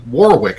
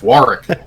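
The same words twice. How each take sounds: First: The middle W is pronounced aloud. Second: The middle W is left silent. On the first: This is how the locals say the name. "they say Warwick" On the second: This is how the English town is said. "the other W is silent. It's Warwick"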